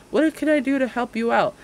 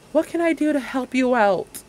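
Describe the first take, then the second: No difference in how they are said.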